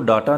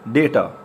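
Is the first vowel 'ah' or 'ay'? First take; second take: ah; ay. First: The first vowel sounds like 'ah'. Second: The first vowel sounds like 'ay'. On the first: The speaker calls it wrong. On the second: The speaker calls it right.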